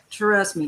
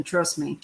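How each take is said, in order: First: TRUST stretched into two beats, "tuh-RUST"; emphatic TRUST. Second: Said in the usual way. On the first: Real, not acted. Warning Talon off homes near schools, emphatic drawn-out TRUST. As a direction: lean hard on TRUST, drawing out its start.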